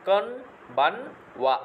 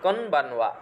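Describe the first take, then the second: First: কনবানওয়া drawn out syllable by syllable, kon-ban-wa; slow model word. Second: Said in the usual way. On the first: Shown as a demonstration. Teacher slowly models কনবানওয়া for the students, drawn out syllable by syllable. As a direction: stretch কনবানওয়া slowly so each part is clear. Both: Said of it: "শুভ Sandhya".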